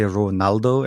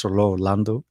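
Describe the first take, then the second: First: Ronaldo, with N before the AL; "Ronaldo", the slip for Rolando; mistaken name. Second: Rolando, with L in the middle; "Rolando", carefully corrected from Ronaldo; corrected name. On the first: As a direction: say "Ronaldo" with an N in the middle. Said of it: "Every time I say his name, I wanna say Ronaldo". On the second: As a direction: say "Rolando", L first and N before the D. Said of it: "as it's Rolando". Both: Shown as a demonstration.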